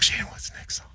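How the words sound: It is spoken in a whisper.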